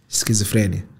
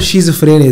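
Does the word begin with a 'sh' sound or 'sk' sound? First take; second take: sk; sh. First: The word begins with an 'sk' sound. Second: The word begins with a 'sh' sound.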